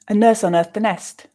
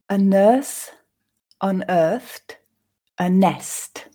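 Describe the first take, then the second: First: The sentence is read at a natural speed. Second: The sentence is read slowly and carefully. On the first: "I'll then read them once more at a more natural pace" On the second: "I'll read them once slowly for you to grasp the meaning"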